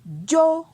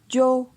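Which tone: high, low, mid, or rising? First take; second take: high; mid. First: The syllable is said on a high tone. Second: The syllable is said on a mid tone. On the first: "Ton haut" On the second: "Ton moyen"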